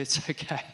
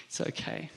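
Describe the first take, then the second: First: Said in the usual way. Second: Soft unvoiced whisper, trailing off; whispered reassurance. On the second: Thomas whispering to Jesus that he need not see scars. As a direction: breathe it gently, almost to himself. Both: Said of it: "And Thomas is like".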